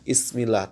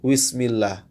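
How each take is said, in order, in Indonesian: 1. Langsung dimulai dengan vokal. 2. Dimulai dengan bunyi w. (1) "tanpa membaca dengan ba yang jelas" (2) "seperti huruf waw saja ya. Ini kesalahan"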